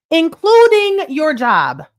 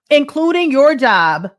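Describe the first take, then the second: First: Including hit higher and slower; stronger emphasis. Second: Slow, deliberate, stress on your; slow emphasis. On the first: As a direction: hammer the word including home. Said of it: "including your job, (repeated again)". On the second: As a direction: lean on your, spell it out. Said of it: "including your job, (repeated)". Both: Shown as a demonstration.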